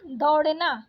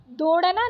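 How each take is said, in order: First: Said in the usual way. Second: दौड़ना said "dor-na", closed o; wrong vowel. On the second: Shown as a demonstration. Teacher rejecting a spelling, दौड़ना with plain o. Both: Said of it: "दौड़ना नहीं होता".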